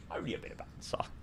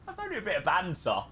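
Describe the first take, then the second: First: Whispered aside; a sly whispered repeat. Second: Said in the usual way. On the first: Shown as a demonstration. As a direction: breathe it out in a whisper, no voice.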